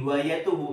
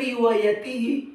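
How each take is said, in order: First: The ending is pronounced with u vowels. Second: The ending is pronounced with i vowels. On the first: The word is read as a subject. The speaker calls it wrong. "Loh salah. Kalau riwayatuhu itu rofa" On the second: The word is read as an object. The speaker calls it right. "Yang betul riwayatihi"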